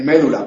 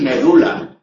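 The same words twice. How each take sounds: First: MÉDULA as ME-du-la; médula, stressed on first syllable. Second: MEDULA as me-DU-la; medula, stressed on U. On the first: Teacher showing what spoils the rhyme, stress ME-du-la. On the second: Teacher on reciting Quevedo, stress me-DU-la. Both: Shown as a demonstration. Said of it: "no se puede decir médula".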